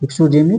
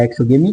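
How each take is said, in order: First: एक्सोजेमी with a j sound in जे; soft-g variant. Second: एक्सोगेमी with a hard g in गे; hard-g variant. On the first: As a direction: say एक्सोजेमी with "jay" in the middle. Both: Shown as a demonstration. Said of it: "या एक्सोगेमी कहते हैं".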